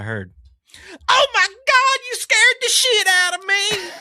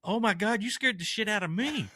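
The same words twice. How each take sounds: First: High, loud startled shriek; screaming lady. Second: Said in the usual way. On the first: Retold or imitated. Startled customer shrieks at the clerk, high and loud. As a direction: shriek it like a scared woman. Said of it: "that's how she says it". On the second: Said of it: "And I said".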